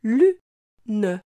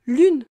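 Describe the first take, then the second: First: "Lune" as lu... ne, pause between; split into syllables. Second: Said in the usual way. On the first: Shown as a demonstration. Teacher helping the child hear lu, syllable by syllable. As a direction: break Lune in two, voicing the final e. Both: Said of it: "Tu entends bien la syllabe lu".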